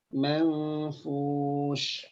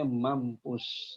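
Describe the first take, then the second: First: It has a soft 'nf' and ends in 'sh'. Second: It has a hard 'mp' and ends in 's'. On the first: The speaker calls it right. "Dibacanya manfush" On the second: The speaker calls it wrong. "ini ayat dibacanya mampus ya. Mohon maaf ya"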